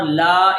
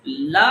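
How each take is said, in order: First: لا with a long aa; long vowel. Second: لا with a brief a; short vowel. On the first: Teacher shows the difference, second لا held long. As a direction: stretch out لا. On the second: Teacher shows the difference, first لا kept short. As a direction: say لا unstretched. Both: Shown as a demonstration. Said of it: "ان دونوں میں فرق ہے".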